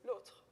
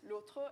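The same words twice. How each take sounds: First: The word is said with one syllable. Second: The word is said with two syllables. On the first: "on one syllable" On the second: "which is in two syllables because it's being followed by a consonant"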